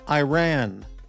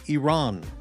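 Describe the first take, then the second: First: It is said the usual English-speaker way. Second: It is said the way Iranians say it. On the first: This is how people here usually say it. The speaker calls it wrong. "We always say uh" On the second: This is how people from the country say it. The speaker calls it right. "but I- Iranians say Iran"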